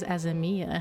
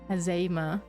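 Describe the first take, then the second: First: The name ends with an 'ee-ah' sound. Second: The name ends with a plain 'ah' sound.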